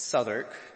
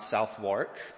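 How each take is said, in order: First: The name is shortened with the o and w dropped. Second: The name is said with every letter sounded. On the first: The speaker calls it right. "get rid of the O, get rid of the W, get rid of half of the A" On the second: The speaker calls it wrong. "it's not Southwark"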